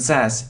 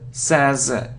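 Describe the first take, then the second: First: The s is pronounced as a hissing s. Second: The s is pronounced as a buzzing z. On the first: The speaker calls it wrong. "it isn't says" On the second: The speaker calls it right. "it says"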